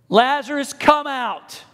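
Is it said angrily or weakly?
angrily. It is shouted in a forceful, angry voice.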